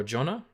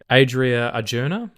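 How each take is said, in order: First: "Arjona" as ar-JON-na, short O; alternative pronunciation. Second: "Arjona" as ar-JOO-na, rising; tentative pronunciation. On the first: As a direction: offer "Arjona" with a short stressed O. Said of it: "um, or Arjona". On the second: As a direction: sound out "Adria Arjona" slowly, unsure. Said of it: "I think it is". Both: Real, not acted.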